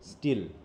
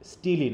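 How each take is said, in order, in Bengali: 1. নামটি পরিষ্কারভাবে "l" ধ্বনি দিয়ে শেষ হয়েছে। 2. নামটির শেষে একটা অতিরিক্ত "ee" স্বরধ্বনি যোগ হয়েছে। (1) "এটা উচ্চারণ হবে কি, স্টিল" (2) "অনেকে স্টিলি ফিলি বলে উচ্চারণ করো"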